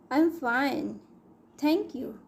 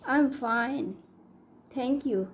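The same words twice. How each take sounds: The two takes are said the same way.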